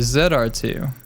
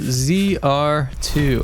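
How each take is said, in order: First: The letter Z is said as 'zed'. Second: The letter Z is said as 'zee'.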